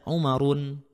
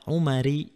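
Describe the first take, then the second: First: The name ends in -un with a final n. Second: The name ends in a plain -i vowel. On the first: "nggak boleh dibaca Umarun" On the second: "Tidak boleh juga dibaca Umari"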